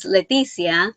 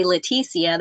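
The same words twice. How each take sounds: First: Name said with a Spanish accent. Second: "Leticia" with the T enunciated; English pronunciation. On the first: Crocheter giving her real name, Spanish accent. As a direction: say "Leticia" the Spanish way. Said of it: "when I say it with my Spanish accent". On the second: Crocheter introducing herself to non-Hispanics, Anglicized "Leticia". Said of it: "enunciating it, making it sound more English". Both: Shown as a demonstration.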